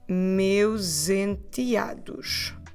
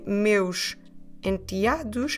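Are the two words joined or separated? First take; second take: joined; separated. First: The s links to the vowel as z. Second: The two words are said separately. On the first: "you can run them together" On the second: "instead of saying separately"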